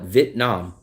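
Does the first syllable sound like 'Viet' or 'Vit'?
Vit. The first syllable is said as 'Vit'. This is how locals say it. "locals will call it Vietnam. ... I hear Vit, not Viet"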